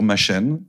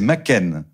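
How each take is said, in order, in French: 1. Le nom se prononce avec un son de style français. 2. Le nom se prononce avec un son de style gallois. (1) "ne dites pas surtout Arthur Machen" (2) "C'est Machen, d'accord? Et il est gallois"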